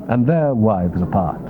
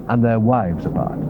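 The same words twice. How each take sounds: The two takes are said the same way.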